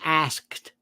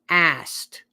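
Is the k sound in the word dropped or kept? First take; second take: kept; dropped. First: The k sound is kept, ending in skt. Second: The k sound is dropped, ending in st. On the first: "We're not saying asked" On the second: "A S T, we're saying asked"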